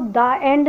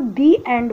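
First: 'The' is said with a short 'thuh' vowel. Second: 'The' is said with a long 'thee' vowel. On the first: The speaker calls it wrong. "उसको द end नहीं बोलते" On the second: The speaker calls it right. "उसको दी एंड बोलते हैं क्योंकि उसमें बॉवल sound use हो रहा है"

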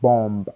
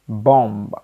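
First: The final b is sounded. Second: The final b is silent. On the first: The speaker calls it wrong. "not bomb" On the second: The speaker calls it right. "B is automatically silenced"

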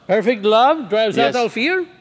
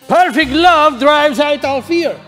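First: The voice rises at the end like a question. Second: The voice falls at the end like a statement. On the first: It sounds like a question. The speaker calls it wrong. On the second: It sounds like a firm statement. The speaker calls it right.

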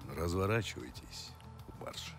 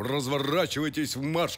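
First: It is said plainly and quietly, without theatrical force. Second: It is declaimed loudly and grandly, like a stage actor. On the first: "А может" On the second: "читать как Лановой"

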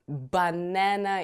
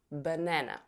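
First: The unstressed vowels are full 'a' sounds. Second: The unstressed vowels are relaxed schwas. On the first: The speaker calls it wrong. "это никакой не banana, ... с нашим русским акцентом" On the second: The speaker calls it right. "здесь вот у нас как раз появляется этот звук шва"

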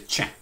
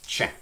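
First: The word starts with a ch sound. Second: The word starts with a ch sound.

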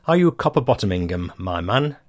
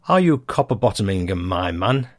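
No difference in how they are said.

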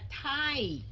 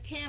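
First: The vowel glides from 'ah' to 'ee' before m. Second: The vowel stays flat, close to 'them'. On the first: The speaker calls it right. "mà là time ... rồi kéo qua âm M" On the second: The speaker calls it wrong. "Không phải time"

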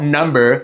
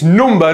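First: The word is said in an American accent. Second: The word is said in a British accent. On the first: The speaker calls it wrong. "not number, you stupid Americans" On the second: The speaker calls it right. "it's number"

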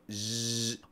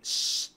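First: The hissing sound is made with voice. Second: The hissing sound is made without voice. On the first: "con intervención de las cuerdas" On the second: "No hacen sh"

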